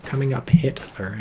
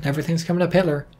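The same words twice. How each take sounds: First: "Coming up Hitler" said clearly, word by word; deliberate clear repeat of "Coming up Hitler"; enunciated. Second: Fast, slurred aside; rapid throwaway joke; rushed. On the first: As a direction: spell out "Coming up Hitler" so nobody misses it. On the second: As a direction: toss it off quickly under the breath. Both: Shown as a demonstration. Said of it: "in case I didn't enunciate that well enough".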